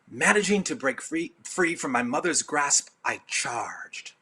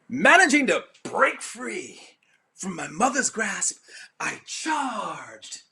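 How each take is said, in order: First: It is read in a plain, even voice. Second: It is read with theatrical, energetic expression.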